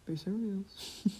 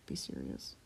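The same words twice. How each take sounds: First: Slow, falling serious. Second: Dropped way down low and unvoiced; mock deep whisper of Be serious. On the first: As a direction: draw out serious slowly. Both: Shown as a demonstration.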